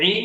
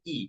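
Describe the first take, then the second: First: ই made deep in the throat, as the letter ain. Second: Said in the usual way. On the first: Shown as a demonstration. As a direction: push ই out from the throat. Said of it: "উচ্চারণ গলা থেকে আসবে". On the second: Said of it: "আর এটা ইয়া জের ই".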